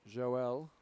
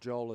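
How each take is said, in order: First: The name is said in its original pronunciation. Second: The name is said in an Australian pronunciation.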